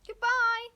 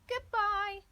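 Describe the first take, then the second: First: Loud, much higher call of goodbye; a ringing farewell call. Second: Put-on "Goodbye" in a high, different child's voice, louder; a second voice calling "Goodbye" back; a high echoing reply of "Goodbye"; other child's goodbye. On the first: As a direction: shout "Goodbye" high and loud across the distance. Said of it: "he called". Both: A narrator's reading.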